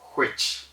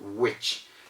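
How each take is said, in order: First: It begins with a breathy, blown h before w. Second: It begins with a plain w, no breathy h. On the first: The speaker calls it wrong. "many people call it which, which... They blow the air from the throat" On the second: The speaker calls it right. "That's the correct pronunciation"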